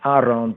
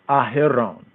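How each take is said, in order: First: The name is said without an h sound. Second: The name is said with an h sound. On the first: The speaker calls it wrong. "not Aaron" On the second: The speaker calls it right. "but Aharon"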